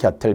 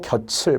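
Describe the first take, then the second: First: The middle consonant sounds like t. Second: The middle consonant sounds like ch. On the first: The speaker calls it right. "곁을 ... 하겠죠" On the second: The speaker calls it wrong. "내 곁을 떠났다고 가수들이 한다니까요. 절대 안 돼요"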